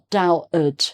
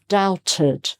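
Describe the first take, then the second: First: The middle T sound is left out. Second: The middle T is clearly pronounced. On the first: The speaker calls it wrong. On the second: The speaker calls it right.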